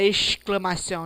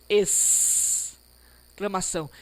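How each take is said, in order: First: The x is said as an sh sound. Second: The x is said as an s sound. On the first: This is a regional way of saying it. The speaker calls it wrong. "no Rio de Janeiro, o pessoal fala exclamação, né? Ex, puxa" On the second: This is the standard way of saying it. The speaker calls it right. "produzindo um fonema, um som de S. Por isso, exclamação"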